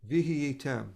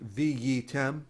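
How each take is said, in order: First: A soft, quick h sound is heard mid-word. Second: No h sound is heard mid-word. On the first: "the hey is very soft and fast" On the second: "often people will just say viyitem"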